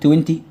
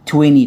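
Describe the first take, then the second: First: It is said in a non-American accent. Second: It is said in an American accent. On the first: "توينتي صح، لكن احنا بندور على ... امريكان اكسنت" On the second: "بالامريكان اكس اسمها توينتي"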